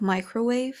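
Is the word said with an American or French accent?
American. The word is said with an American accent. The speaker calls it right.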